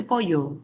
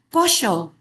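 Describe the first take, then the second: First: Pollo said as "poyo"; standard Y sound. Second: Pollo said as "posho"; Argentine sh sound. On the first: Teacher mock-correcting an Argentine, pollo with Y for LL. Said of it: "se dice pollo". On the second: Teacher mimicking an Argentine, pollo with SH for LL. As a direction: put an Argentine SH in the middle of pollo. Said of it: "no se dice pollo". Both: Shown as a demonstration.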